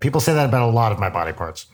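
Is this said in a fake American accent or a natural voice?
natural voice. It is said in the speaker's natural accent.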